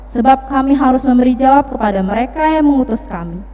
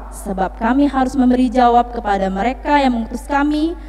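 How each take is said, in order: Both takes have the same delivery.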